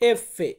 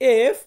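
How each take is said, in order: First: A short vowel follows the f. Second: It ends on the f sound. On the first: "এফ এর লাস্টে একটু ফে সাউন্ড আসবে" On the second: "আমরা বলি এফ"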